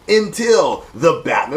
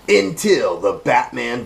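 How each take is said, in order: First: It is said in the speaker's normal voice. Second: It is said in a put-on trailer narrator voice.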